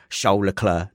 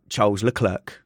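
First: The name is said with the careful pronunciation. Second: The name is said with the common casual pronunciation. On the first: The speaker calls it right. "I will try my best to say Charles Leclerc" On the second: The speaker calls it wrong. "not Charles Leclerc"

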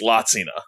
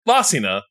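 First: The middle consonant is a ts sound. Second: The middle consonant is a plain s sound. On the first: This is the technically correct way to say the name. "if you want to be technical, it's Latsina" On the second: This is the everyday way the name is said. "well, Lasina"

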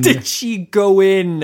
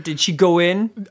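First: The question is said at a normal pace. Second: The question is said at a fast pace.

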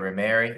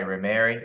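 First: The name is said with an English pronunciation. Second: The same.

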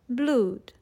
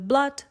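First: The vowel is a long oo sound. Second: The vowel is short. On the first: This is the pronunciation from Shakespeare's time. "they all sounded like we say the word food today" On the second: This is the modern pronunciation. "are now even shorter"

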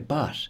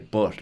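First: It is said in a British English accent. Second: It is said in the speaker's own local accent. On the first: This is the form learners are taught. "You're supposed to say but and Dublin" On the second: This is how people here really talk. "That's just my accent"

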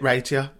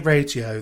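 First: It is said in a regional accent. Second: It is said in a standard accent. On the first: This is the speaker's own everyday way of saying it. The speaker calls it wrong. "don't call it radio" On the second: This is the way considered proper. The speaker calls it right. "That's how you say it properly"

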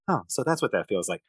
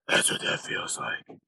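First: It is said in Bruce Wayne's normal voice. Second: It is said in a gruff Batman voice.

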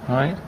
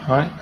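Both takes have the same delivery.

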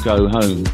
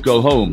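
First: The vowel in go has a Cockney quality. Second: The vowel in go has a Caribbean-influenced quality. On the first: This is the older local city speech. "as a Brummy or a Cockney would say" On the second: This is newer youth speech influenced by the Caribbean. "these young people would say go home. Different vowel"

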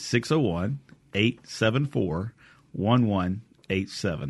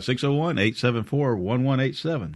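First: The number is said slowly. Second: The number is said quickly.

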